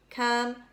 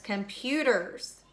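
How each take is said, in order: First: "Computers" broken into three separate beats, com-pu-ters; syllable by syllable. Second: Said in the usual way. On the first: Shown as a demonstration. Teacher showing three syllables, "Computers" split as com, pu, ters. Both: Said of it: "Three syllables".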